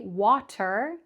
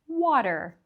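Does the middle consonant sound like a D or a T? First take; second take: T; D. First: The middle consonant is a clear T sound. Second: The middle consonant is a quick D-like flap. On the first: The speaker calls it wrong. "we don't say water" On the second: The speaker calls it right. "but water"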